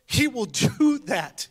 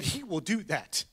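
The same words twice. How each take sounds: First: Repeated higher and louder through a laugh; joyful laughing insistence; laughing emphasis. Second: Said in the usual way. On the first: Real, not acted. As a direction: say it again, delighted and laughing.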